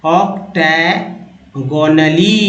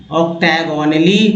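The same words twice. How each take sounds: First: Octagonally drawn out syllable by syllable, very slow; slow teaching pronunciation of octagonally. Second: Said in the usual way. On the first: Shown as a demonstration. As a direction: spell out octagonally slowly for learners. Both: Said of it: "एक बार उच्चारण कर लीजिए".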